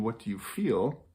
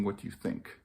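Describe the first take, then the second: First: Said in the usual way. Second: Dropped to a soft near-whisper; quiet whisper. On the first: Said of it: "is to ask the question". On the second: Shown as a demonstration. Parent contrasting the question it should not ask, whispered. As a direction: let "What do you think?" fall away to a breathy hush. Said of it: "instead of asking".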